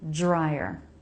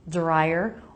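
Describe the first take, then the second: First: The word starts with a J sound. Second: The word starts with a D sound. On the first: "or a J sound" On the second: "you can make this word with a D sound"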